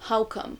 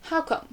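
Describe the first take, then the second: First: Said in the usual way. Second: "How come?" asked as a real question, higher pitched; "How come?" spoken as a question, pitched higher; questioning tune. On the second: Shown as a demonstration. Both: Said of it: "l'inflexion de la question".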